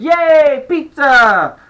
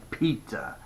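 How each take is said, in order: First: Put-on high, loud kid's cheer; excited shout. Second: Soft, lower, resigned "pizza"; reluctant giving in. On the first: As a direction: shout it in delight. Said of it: "The pain shouted". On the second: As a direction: concede it quietly, pitch dropped. Girl gives in reluctantly. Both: A narrator's reading.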